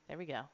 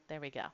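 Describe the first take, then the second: The two takes are said the same way.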